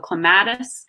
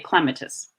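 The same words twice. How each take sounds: First: The vowel is pronounced long. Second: The vowel is pronounced short. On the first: This is how it is said in the US. "in the U S, uh, we tend to pronounce vowels long" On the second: This is how it is said in England. "in England, vowels are pronounced um, short"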